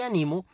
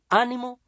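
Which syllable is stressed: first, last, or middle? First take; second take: middle; first. First: The stress is on the middle syllable. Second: The stress is on the first syllable. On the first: The speaker encourages themselves now. "no se tilda porque es grave" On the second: It means encouragement, a noun. "se tilda porque es esdrújula"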